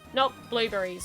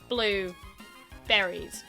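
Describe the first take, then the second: First: The stress falls on the word blue. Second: The stress falls on the word berries. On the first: The fruit named blueberry. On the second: Any berries that have a blue colour. "berries that are blue"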